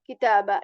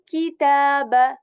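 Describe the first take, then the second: First: The ki syllable is said casually, without spread lips. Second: The ki syllable is said carefully with spread lips. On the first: The speaker calls it wrong. "We are not going to just say kitaba kitaba like this. No" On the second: The speaker calls it right. "We are going to pronounce it intentionally"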